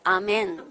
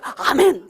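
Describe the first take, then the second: First: It is said flatly, without any enthusiasm. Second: It is said with lively, excited enthusiasm.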